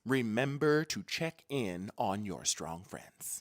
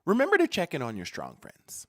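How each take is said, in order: First: Low, slow "Remember to check in on your strong friends"; slow, deliberate reminder. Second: Said in the usual way. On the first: Real, not acted. Host repeats advice to viewers, slow and deliberate. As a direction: spell it out slowly and lower, word by word.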